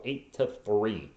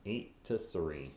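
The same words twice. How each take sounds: First: Said in the usual way. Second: Softer, deflated repeat; quiet. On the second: Real, not acted. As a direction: mutter the score to yourself.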